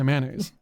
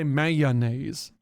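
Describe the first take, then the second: First: The word is squeezed into fewer syllables. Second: The word is said with all its syllables. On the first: This is how some people in the region say it. "crushing it and making a shorter word" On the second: This is the standard way others say it. "I don't say"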